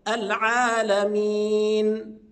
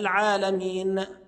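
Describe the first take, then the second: First: The final n ends cleanly without strain. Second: The final n ends with an echoing bounce. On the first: The speaker calls it right. "أظهر النون بدون تكلف" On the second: The speaker calls it wrong. "بعض الناس يقلقلها"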